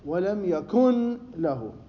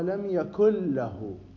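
First: The n sound is pronounced clearly before l. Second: The n sound merges into the following l. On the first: It does not follow the recitation rules. "إذا ما أقرأها على القواعد" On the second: It follows the recitation rules. "إذا نقرأها على القواعد، قواعد علم التجويد، المفروض أقرأها"

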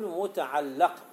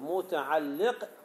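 First: The L sound carries the vowel a. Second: The L sound carries the vowel i. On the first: The word names the thing that is attached to. "كما يصح أن تقرأ بفتح اللام" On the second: The word names the thing that attaches to another. "يصح أن تقرأ بكسر اللام"

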